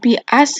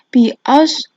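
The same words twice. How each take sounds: First: The s sound is a plain, light s. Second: The s sound is heavy, with rounded lips. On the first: The speaker calls it wrong. "bukan bi as ya" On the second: The speaker calls it right. "tapi bi as. Hmm, mulutnya agak maju ke depan"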